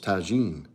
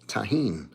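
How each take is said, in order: First: The middle consonant sounds like a soft 'j'. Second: The middle consonant sounds like an 'h'. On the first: The speaker calls it wrong. "I thought it was tagine" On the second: The speaker calls it right. "I've been saying it wrong all these years"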